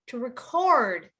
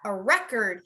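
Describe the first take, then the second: First: The stress is on the second syllable. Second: The stress is on the first syllable.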